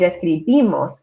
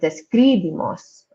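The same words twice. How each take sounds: First: The stress falls on the second-to-last syllable. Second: The stress falls on a different syllable. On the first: The speaker calls it right. "the second to last vowel is that last I. So that's why we say describimos" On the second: The speaker calls it wrong.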